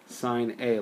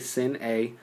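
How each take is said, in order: First: The first word has a long vowel, like fine. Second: The first word has a short vowel, like pin. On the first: The speaker calls it right. "is written as sine A" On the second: The speaker calls it wrong. "so don't say sin A"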